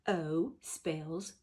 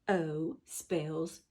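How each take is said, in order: Both takes have the same delivery.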